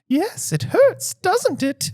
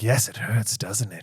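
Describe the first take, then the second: First: It is a closer imitation of Umbridge's voice. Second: It is a weak imitation of Umbridge's voice.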